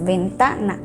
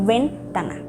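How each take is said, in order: First: The stress falls on the middle syllable. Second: The stress falls outside the middle syllable. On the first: The speaker calls it right. "es ventana. Entonces, la sílaba tónica cayó en ta" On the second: The speaker calls it wrong. "no dices ventana o ventana"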